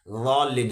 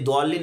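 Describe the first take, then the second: First: It starts with a heavy, emphatic d sound. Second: It starts with a plain, light d sound. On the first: The speaker calls it right. "बल्कि गॉलिन है" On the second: The speaker calls it wrong. "ये दौलिन नहीं है"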